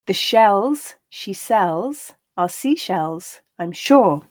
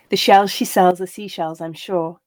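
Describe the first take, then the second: First: The line is read at a slow pace. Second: The line is read at a natural pace. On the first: "I'll read each line slowly" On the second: "then once at that more natural pace"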